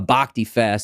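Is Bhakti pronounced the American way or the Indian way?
American. Bhakti is said with an American pronunciation. The speaker calls it wrong. "if they're saying like Hatha Yoga or a Bhakti Fest"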